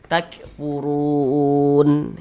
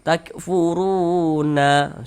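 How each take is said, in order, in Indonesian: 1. Kata ini berakhir dengan huruf n mati. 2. Kata ini berakhir dengan tambahan vokal di akhir. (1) "kita baca takfurun" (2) "Jangan dibaca takfuruna. Salah"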